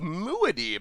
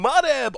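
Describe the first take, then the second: First: The name is said as 'Muad-Dib'. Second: The name is said as a short 'Mudeb'. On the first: The speaker calls it right. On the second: The speaker calls it wrong.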